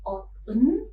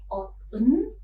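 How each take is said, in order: First: A t sound is heard between the two syllables. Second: The same.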